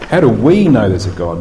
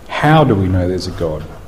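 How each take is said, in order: First: The stress falls on the word "we". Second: The stress falls on the word "how". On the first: It asks whether different groups experience God differently. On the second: It asks by what mechanism belief in God is accepted. "what's the physical or psychological or neurological mechanism"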